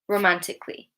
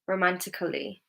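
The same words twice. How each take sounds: First: The 'a' before 'ly' is silent. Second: The 'a' before 'ly' is pronounced as a syllable. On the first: The speaker calls it right. "So the A is silent in these words" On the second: The speaker calls it wrong. "If I were to pronounce the A, it would be"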